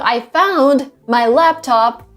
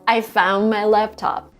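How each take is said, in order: First: The D in found is pronounced as a stop. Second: The D in found is dropped, ending on N. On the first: The speaker calls it wrong. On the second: The speaker calls it right.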